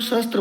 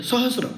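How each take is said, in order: First: सहस्त्र with an extra t, shown as wrong; wrong pronunciation. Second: सहस्र said with a clean s-r cluster, no t; correct pronunciation. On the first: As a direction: mispronounce सहस्त्र with the t. (सहस्त्र गलत उच्चारण, त के साथ) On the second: (सहस्र सही उच्चारण, बिना त के) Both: Shown as a demonstration. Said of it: "सहस्त्र गलत".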